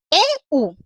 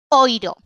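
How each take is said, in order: First: The vowel is said as separate 'eh' then 'oo'. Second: The vowel is said as one 'oy' sound. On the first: The speaker calls it right. "para que sean E U" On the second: The speaker calls it wrong. "y no oiro"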